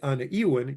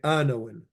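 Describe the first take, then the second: First: Said as two words with the full first syllable. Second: Said as one word with the syllable dropped. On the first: "You don't have to say ana iwin" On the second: "You can just say anawin"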